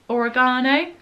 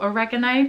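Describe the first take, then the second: First: It is said with a British pronunciation. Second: It is said with an American pronunciation.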